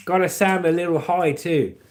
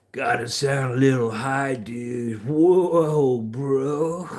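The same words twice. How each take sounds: First: Said in the usual way. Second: Drawn-out, dazed dude voice; stoned surfer. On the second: Acted. Following a viewer's note, stoned surfer drawl. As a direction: sound spaced-out and a little high.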